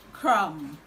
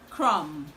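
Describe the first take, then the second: No difference in how they are said.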